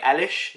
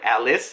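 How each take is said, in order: First: The name ends with an sh sound. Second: The name ends with an s sound. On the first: The speaker calls it right. "like Alish" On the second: The speaker calls it wrong. "not like Alice"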